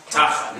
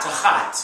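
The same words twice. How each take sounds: First: TAchat, leaning on the TA; "Tachat" with a short, light second syllable; first-syllable accent. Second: "tahat" stressed on the last syllable, taHAT; "tahat" with a longer second vowel; wrong final accent. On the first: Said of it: "It sounds like it has the accent". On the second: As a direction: lean on the HAT in "tahat". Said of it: "not tahat". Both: Shown as a demonstration.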